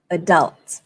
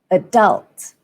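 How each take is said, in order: First: The stress is on the second syllable. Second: The stress is on the second syllable.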